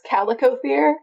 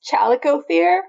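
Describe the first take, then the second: First: The word begins with a k sound. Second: The word begins with a ch sound. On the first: "If it's not, it's Calicothere" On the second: "if it is, it's Chalicothere"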